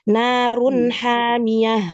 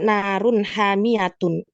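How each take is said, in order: First: The last word ends softly in -ah. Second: The last word ends in a full -atun. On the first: The speaker calls it right. "ya kan? Gitu" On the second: The speaker calls it wrong. "Emang kita baca narun hamiyatun? Enggak kan?"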